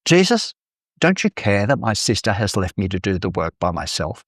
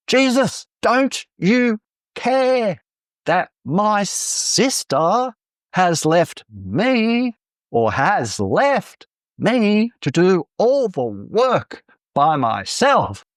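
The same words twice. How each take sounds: First: Mildly exasperated complaint, sharp rise on the name; a touch of fed-up protest; annoyed outburst. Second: "Jesus, don't you care" high and drawn out, every key word punched; emphasis on every key word. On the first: Acted. Frustrated Martha complains to Jesus about her sister, annoyed outburst. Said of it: "Growing annoyance leads to an outburst".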